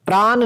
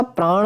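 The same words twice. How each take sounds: First: "प्राण" ending in dental n. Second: "प्राण" ending in retroflex ṇ. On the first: Teacher showing students the mistake, प्राण ending in plain n. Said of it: "प्राण नहीं होता". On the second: Teacher giving students the correction, प्राण with retroflex ṇ. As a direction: curl the tongue back on the end of प्राण. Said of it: "प्राण होता है मेरे शेर". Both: Shown as a demonstration.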